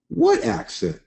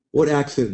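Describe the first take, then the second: First: High-pitched, mock-baffled question; mock surprise. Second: Said in the usual way. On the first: Joking reply about his accent.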